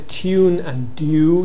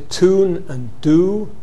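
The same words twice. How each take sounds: First: A separate y sound follows t and d. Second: There is no y sound after t and d. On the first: "If you don't drop the yod and you say tune and do" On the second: "If you drop the yod in words like tune, do, and you say tune and do"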